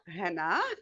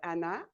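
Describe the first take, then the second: First: The name starts with a breathy h sound. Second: The name starts with a vowel, no h.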